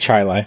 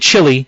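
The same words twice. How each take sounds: First: It uses the local regional pronunciation. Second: It uses the widely common pronunciation. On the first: "over here they say chili" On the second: "where most people say chili"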